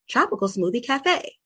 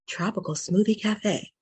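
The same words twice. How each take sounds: First: A natural everyday voice resonating in the chest. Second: A deeper voice resonating low in the belly. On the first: "using chest voice" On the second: "get a little bit deeper into your gut or belly voice"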